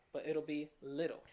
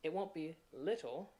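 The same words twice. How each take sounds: First: Teacher shows the Southern D sound in "little"; flap T. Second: Said in the usual way. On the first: Shown as a demonstration.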